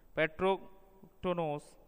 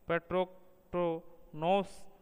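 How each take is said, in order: First: The stress falls on the syllable ro. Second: The stress falls on the syllable to. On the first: "रो पर बलाघात स्वराघात देकर" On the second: "टो पर बलात्मक स्वराघात देकर"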